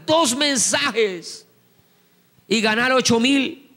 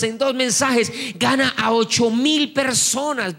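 First: "dos mensajes" drawn out very slowly, each word weighted; slow emphasis. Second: Said in the usual way. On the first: Shown as a demonstration. Preacher stresses to the congregation how few messages, slow and weighted. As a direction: spell out "dos mensajes" slowly, then land "ocho mil".

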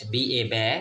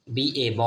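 First: ব্যা with an open ae vowel, as in bat. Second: ব with a rounded, held aw vowel, as in ball. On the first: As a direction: spell B A, then sound out ব্যা. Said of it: "ব্যয়ের মতো উচ্চারণ". (B A বানান করে ব্যা উচ্চারণ) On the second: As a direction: spell B A, then sound out ব. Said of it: "উচ্চারণ হবে এখানে বয়ের মতো হবে". (বি এ বানান করে ব উচ্চারণ) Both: Shown as a demonstration.

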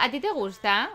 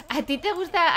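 First: Said in the usual way. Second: Higher, sing-song teasing question; playful singsong ribbing. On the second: Pretend. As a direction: tease her about her crush. Teasing a Sim about a crush.

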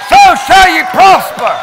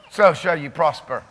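First: Loud, high proclamation; shouted declaration. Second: Said in the usual way. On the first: Real, not acted. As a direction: cry it out to the church. Preaching repetition.

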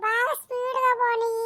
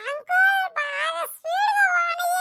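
First: Said in the usual way. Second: Excited shout. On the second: Acted. Child begging uncle go faster.

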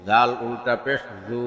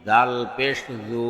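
First: Final "জু" held long; drawn-out vowel. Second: Final "জু" cut short; quick short vowel. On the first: Teacher demonstrating ulta pesh, long "জু". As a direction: stretch the last "জু" for one alif. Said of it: "একালিপ টেনে পড়তে". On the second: Teacher demonstrating normal pesh, short "জু". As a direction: keep the last "জু" brief, not held. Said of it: "তাড়াতাড়ি করতে হয়". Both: Shown as a demonstration.

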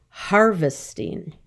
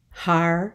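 First: Said in the usual way. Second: "Harvesting" broken into three beats, har-ve-sting; syllable by syllable. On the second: Shown as a demonstration. Teacher splitting a word for the class, "Harvesting" syllable by syllable. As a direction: say "Harvesting" with clear gaps between syllables.

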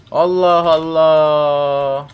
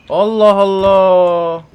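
First: Very slow, drawn-out Allah Allah; weary drawl. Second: Slow Allah Allah pushed louder; stretched, frustrated outburst; louder exasperated drawl. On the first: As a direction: stretch each syllable in tired disbelief. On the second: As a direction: drag it out, building irritation. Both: Real, not acted. Still no gasoline anywhere.

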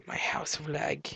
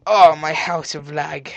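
First: Hushed, whispered echo. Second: Slow, loud drawn-out groaning words; loud lament. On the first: Player echoing about his house of lag, whispered. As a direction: whisper it to yourself. Same words repeated whispered. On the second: Player facing his lagging house, loud slow lament. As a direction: draw it out aloud, slowly. First take, voiced aloud. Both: Pretend.

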